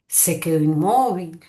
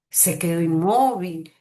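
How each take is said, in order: First: The pitch rises and then falls. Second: The pitch rises and then falls.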